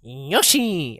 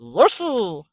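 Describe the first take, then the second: First: A failed attempt at the Yoshi call; botched cartoon dinosaur call. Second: A short Yoshi creature cry; cartoon dinosaur call. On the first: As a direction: try the Yoshi cry and miss. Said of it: "I can't do that". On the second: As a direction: chirp the name like Yoshi. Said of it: "Do that again".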